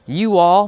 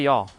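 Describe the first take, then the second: First: "You all" as two separate words, higher and louder; full form "You all". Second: Said in the usual way. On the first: Shown as a demonstration. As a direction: pronounce both words of "You all" fully. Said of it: "No, I say y'all". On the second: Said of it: "I say y'all".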